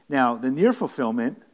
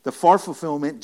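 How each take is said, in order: First: Near pressed firmly; preacher's emphasis on near; stress on near. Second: Far hit loud and a bit higher; preacher's emphasis on far; stress on far. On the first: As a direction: lean on the word near to set up the contrast. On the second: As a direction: punch the word far against near. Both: Shown as a demonstration. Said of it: "the near and far fulfillment".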